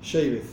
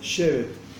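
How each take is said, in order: First: It is said with an Ashkenazi Hebrew pronunciation. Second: It is said with a Sephardi Hebrew pronunciation. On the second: "Si vos pronunciás tipo sefaradí es"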